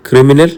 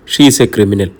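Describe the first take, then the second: First: "criminal" rising as a question; questioning echo. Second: "criminal" falling, as a verdict; stern statement. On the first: Doctor queries the SP's accusation, "criminal" a rising question. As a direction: echo "criminal" back, lifting the end in doubt. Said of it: "ഡോക്ടറുടെ മിഴികൾ കുറുകി". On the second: SP tells the doctor about Mithra, "criminal" a stern falling statement. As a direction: state "criminal" as fact, pitch dropping low. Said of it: "സ്വരത്തിൽ കാഠിന്യമുണ്ടായി". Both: A narrator's reading.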